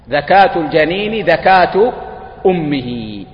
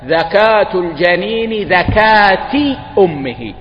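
First: The second dhakat ends with a u vowel. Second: The second dhakat ends with an a vowel. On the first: The mother's slaughter counts as the fetus's slaughter. The speaker calls it right. "هذا لفظ الحديث" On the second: The fetus must be slaughtered like its mother. The speaker calls it wrong. "قالوا هذا للتشبيه"

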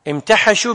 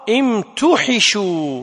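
First: The vowel after the ḥ is 'a'. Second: The vowel after the ḥ is 'i'. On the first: They themselves became charcoal. "بفتح الحاء لما يسمى فاعله" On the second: They were made into charcoal. "بكسر الحاء وضم التاء"

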